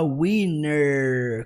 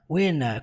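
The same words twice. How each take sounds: First: The word ends with an audible r sound. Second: The word ends in a plain vowel without r. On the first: "ele não fala winner com som de er" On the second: "É uma pronúncia um pouquinho mais britânica"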